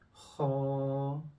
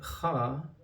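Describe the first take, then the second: First: The sound is full and a bit rounded. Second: The sound is thin and plain, not rounded. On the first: The speaker calls it right. "the right sound will be ha" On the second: The speaker calls it wrong. "that will not be the right sound"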